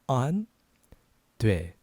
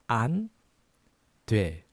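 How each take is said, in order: Both takes have the same delivery.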